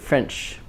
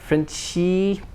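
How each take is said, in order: First: The word ends cleanly on the ch sound. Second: An extra vowel follows the final ch sound. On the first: The speaker calls it right. "but French" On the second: The speaker calls it wrong. "not Frenchy"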